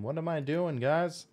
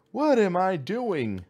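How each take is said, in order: First: Said in the usual way. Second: Higher and slow, exasperated; slow, high, bewildered repeat; drawn-out baffled question. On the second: Real, not acted. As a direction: stretch it out in disbelief. Puzzled gamer repeats question louder.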